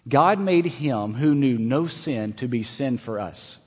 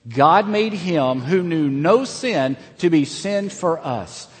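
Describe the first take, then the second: First: It is read in a calm, plain way. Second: It is read with strong passion and energy.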